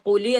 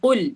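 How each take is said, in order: First: An extra vowel is added after the l. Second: The word ends cleanly on the l sound. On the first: The speaker calls it wrong. "നമ്മൾ കുലി എന്ന് പറഞ്ഞില്ല" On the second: The speaker calls it right. "അവിടെ എന്ത് ചെയ്തു? കുൽ"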